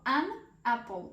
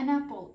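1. Два слова вимовляються окремо. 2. Два слова злиті разом як одне. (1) "Найчастіше ви можете почути не an apple" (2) "звуки ... просто так перепливають і з'єднуються"

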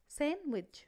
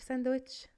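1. صوت الدال صامت في الكلمة. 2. صوت الدال منطوق في الكلمة. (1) "لا sandwich" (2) "ما بقولش sandwich"

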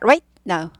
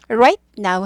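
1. Right는 now 앞에서 딱 끊겨요. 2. Right는 끊김 없이 now로 부드럽게 이어져요.

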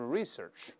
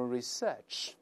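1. 重音在第一个音节。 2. 重音在第二个音节。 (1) "也可以重音前移，多数美国人都是research" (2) "英国人一般都是research"

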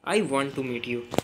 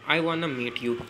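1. 'Want to' को पूरा बोला जाता है। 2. 'Want to' को 'wanna' में घटाया जाता है। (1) "फॉर्मल तरीके से कहेंगे शिष्टाचार भरे लहजे में" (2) "दोस्तों में वगैरह इनफॉर्मल जब हम बोलेंगे तब हम वानना का यूज़ करेंगे"

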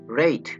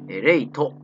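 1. 最後のtの後には母音がありません。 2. 最後のtの後に母音のoが入ります。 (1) "トというのは子音だけの音なので" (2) "母音のO が入らないようにします"

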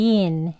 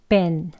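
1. 모음을 길게 늘려서 발음합니다. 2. 모음을 짧게 끊어서 발음합니다. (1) "이렇게 길게 발음하는 강형이 있고요" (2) "그럴 때에는 그냥 짧게 합니다"

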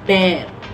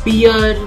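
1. स्वर 'bare' वाले स्वर जैसा लगता है। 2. स्वर 'beer' वाले स्वर जैसा लगता है। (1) "इस शब्द का सही प्रोनाउंसिएशन है बेयर" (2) "इस शब्द को बियर बोलते हुए सुना, जो कि इस शब्द का गलत प्रोनाउंसिएशन है"

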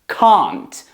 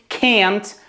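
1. Це вимовляється з британським акцентом. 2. Це вимовляється з американським акцентом. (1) "В британській" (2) "в американській"

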